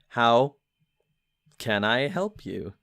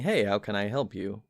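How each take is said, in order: First: It is said very slowly, like a sloth. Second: It is said at a normal speed.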